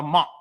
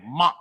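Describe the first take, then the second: First: Said in the usual way. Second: Month clipped short in a Chicago accent, the th dropped. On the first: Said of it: "You have to say it the way LisaRaye said". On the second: Shown as a demonstration. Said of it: "the way LisaRaye said in her Chicago accent".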